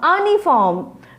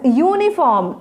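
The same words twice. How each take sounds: First: It begins with a plain vowel sound. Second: It begins with a 'you' sound. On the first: The speaker calls it wrong. "not uniform" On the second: The speaker calls it right. "We are pronouncing this word as uniform"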